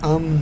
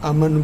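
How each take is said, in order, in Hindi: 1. m और n एक cluster बनाते हैं। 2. m और n के बीच एक स्वर डाला जाता है। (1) "जबकि ये लफ्ज़ है अम्न" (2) "उर्दू में अमन बोलते हैं"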